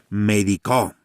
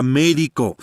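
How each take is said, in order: First: Médico stressed on the final o, as medicó; stress on last syllable. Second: Médico stressed on mé; stress on first syllable. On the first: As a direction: move the weight to the end of médico. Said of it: "va a cambiar el significado de las palabras". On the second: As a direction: put the weight on the opening syllable of médico. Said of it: "dependiendo de la posición de la tilde". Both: Shown as a demonstration.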